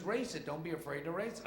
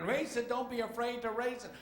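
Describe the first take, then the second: First: Raised, higher-pitched mechanic's call. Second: High, loud yell over the engine; mechanic shouting. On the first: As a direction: urge the driver over the engine. Mechanic calls out over engine. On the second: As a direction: holler urgently to be heard over the racket. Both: Acted.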